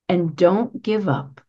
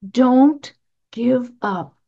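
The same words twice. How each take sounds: First: Said in the usual way. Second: Don't give up, slow and deliberate; slow urging repeat; slow emphatic repeat. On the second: Shown as a demonstration. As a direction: plead it slowly, each word weighted.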